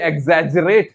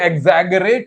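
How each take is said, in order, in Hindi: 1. बीच का व्यंजन 'j' ध्वनि है। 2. बीच का व्यंजन कठोर 'g' ध्वनि है। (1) "सेकंड है" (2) "गरेट"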